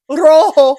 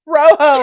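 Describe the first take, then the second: First: Put-on Spanish accent. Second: Rojo with a plain English R, no trill; Rojo, R not rolled. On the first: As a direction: say Rojo like the Spanish teacher, trilling the R. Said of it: "you're gonna do that accent". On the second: Shown as a demonstration. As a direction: say Rojo like a kid who can't trill, as ro-ho. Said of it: "I can't roll my R's".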